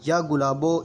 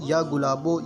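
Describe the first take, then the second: No difference in how they are said.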